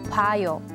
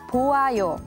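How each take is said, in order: First: The o and a vowels blend into wa. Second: The o and a vowels are said separately. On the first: The speaker calls it right. "the correct way to say it is 봐요" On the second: The speaker calls it wrong. "it's not 보아요"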